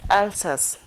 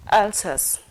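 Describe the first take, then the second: No difference in how they are said.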